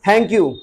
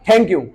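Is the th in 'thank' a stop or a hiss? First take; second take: hiss; stop. First: The th is airy, tongue between the teeth. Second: The th is a hard Hindi-like t stop. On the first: The speaker calls it right. "टंग को बीच में ले आओ, ... दोनों दांतों के बीच में" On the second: The speaker calls it wrong. "पहले हम बोलते थे था, ... पर वो ऐसे नहीं बोलना है"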